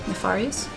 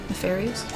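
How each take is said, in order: Both takes have the same delivery.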